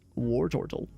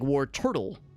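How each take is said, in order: First: The middle syllable is said with a stressed 'or' vowel. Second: The middle syllable is said like plain 'turtle'. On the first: "I usually emphasize the O in war turtle" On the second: "you would think it's like war turtle"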